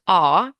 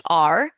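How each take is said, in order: First: "R" said the British way, as "ah" with no r sound. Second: "R" said the American way, as "ar" with a strong final r. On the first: Teacher shows the British pronunciation of "R". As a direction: say "R" like a Brit, with no final r. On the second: Teacher shows the American pronunciation of "R". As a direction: say "R" with a full American r. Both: Shown as a demonstration. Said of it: "or in American English".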